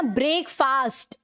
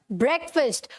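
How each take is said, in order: First: ब्रेकफास्ट in full as "brake-faast"; wrong pronunciation. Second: ब्रेकफास्ट as "BREK-fust"; correct pronunciation. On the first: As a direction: sound both long vowels in ब्रेकफास्ट. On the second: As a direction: keep both vowels of ब्रेकफास्ट short. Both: Shown as a demonstration. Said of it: "पूरा ये नहीं बोलना".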